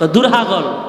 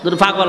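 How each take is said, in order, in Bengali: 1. দ্বিতীয় শব্দটি হ ধ্বনি দিয়ে শুরু। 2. দ্বিতীয় শব্দটি প ধ্বনি দিয়ে শুরু। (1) "নোয়াখালী না তোরা বলে পয়রে হ কস" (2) "দূর পাগল না"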